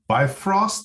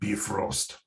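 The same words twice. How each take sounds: First: It is said with a plain English pronunciation. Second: It is said with a Nordic-sounding pronunciation.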